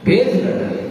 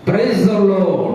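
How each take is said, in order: First: The words are swallowed into one slurred word. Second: Each word is pronounced fully and clearly. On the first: The speaker calls it wrong. "ఈ పదాన్ని కూడా మింగేస్తానండి" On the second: The speaker calls it right. "ఇంగ్లీష్లో కరెక్ట్గా పలకాలి"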